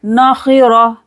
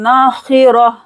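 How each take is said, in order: First: Nakhira with thick kh and r; heavy kha and ra. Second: Nakhira with no lengthening; short, unstretched. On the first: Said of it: "खीरा और हा भारी आवाज में पढ़ेंगे". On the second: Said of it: "यहाँ पर खींचना नहीं है". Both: Shown as a demonstration.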